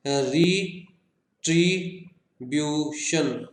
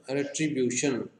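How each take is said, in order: First: रिट्रीब्यूशन slowly as री, ट्री, ब्यू, शन; four-syllable split. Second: Said in the usual way. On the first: Shown as a demonstration. Teacher counting four syllables, रिट्रीब्यूशन in separate beats. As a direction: pause after every syllable of रिट्रीब्यूशन. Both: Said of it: "four syllables के हमारे पास".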